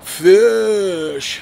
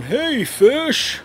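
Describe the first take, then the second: First: Loud, drawn-out sneer on "Fish."; snarky mock. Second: Snarky mock greeting. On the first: Mocking the host's snarky name for fans, sneering. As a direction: stretch "Fish." with contempt. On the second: Mocking the host who calls fans fish, snarky. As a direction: sneer "Hey, fish." like a smug host. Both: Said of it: "he says it in this fucking snarky voice".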